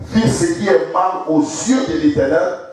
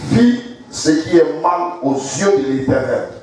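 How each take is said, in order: No difference in how they are said.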